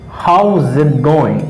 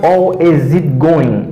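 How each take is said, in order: First: How and is are joined into one contracted syllable. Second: How and is are said as separate full words. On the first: The speaker calls it right. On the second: The speaker calls it wrong.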